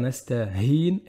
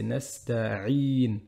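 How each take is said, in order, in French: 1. Un son h vient avant la dernière syllabe. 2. Un son ain de la gorge vient avant la dernière syllabe. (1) "on va faire nasta'hin et là c'est faux" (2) "Donc le vrai c'est nasta'in"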